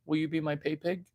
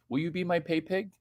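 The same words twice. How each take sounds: First: Softer, teasing repeat. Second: Softer, fast mock taunt. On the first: Acted. Repeat softly.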